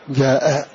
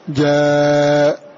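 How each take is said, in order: First: The vowel is short and the final glottal stop is dropped. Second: The long vowel is held briefly. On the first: "والقصر مع حذف الهمز" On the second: "القصر"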